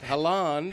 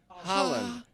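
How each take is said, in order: First: The first vowel is an 'o' sound. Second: The first vowel is an open 'ah' sound. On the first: The speaker calls it wrong. "Not Holland. / H O. That's pronounced Holland" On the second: The speaker calls it right. "pronounced Holland with a, an A sound"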